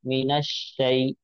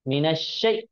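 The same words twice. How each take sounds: First: The final vowel is said softly and quickly. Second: The final vowel is stretched out long. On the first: The speaker calls it right. "नरमी से पढ़ा जाए, नरमी से, और जल्दी" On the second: The speaker calls it wrong. "खींच कर पढ़ना भी गलत है"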